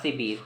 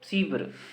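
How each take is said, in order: First: The word ends in a long 'beer' sound. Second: The word ends in a clipped 'vr' sound. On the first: The speaker calls it right. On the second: The speaker calls it wrong.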